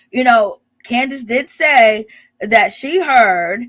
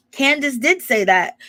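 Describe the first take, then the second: First: "Candace did say that" slowed and louder, each word leaned on; slow emphatic. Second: Said in the usual way. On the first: Shown as a demonstration. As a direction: spell it out slowly, pressing "did".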